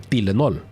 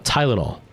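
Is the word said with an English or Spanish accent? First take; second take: Spanish; English. First: It is said with a Spanish accent. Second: It is said with an English accent.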